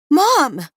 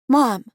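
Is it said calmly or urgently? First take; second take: urgently; calmly. First: It is said loudly and urgently. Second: It is said calmly, without urgency.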